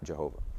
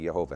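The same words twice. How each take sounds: First: The name begins with a J sound. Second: The name begins with a Y sound. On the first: The speaker calls it wrong. "not Jehovah" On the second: The speaker calls it right. "There is no J in Hebrew, it's actually Jehovah"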